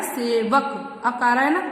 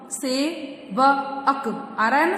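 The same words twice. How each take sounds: First: Said in the usual way. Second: सेवक drawn out very slowly, syllable by syllable; teacher slowing सेवक for the class; slow spelling out. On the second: Shown as a demonstration. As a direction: stretch सेवक to show its ending. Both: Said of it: "जैसे कि आप देख सकते हैं".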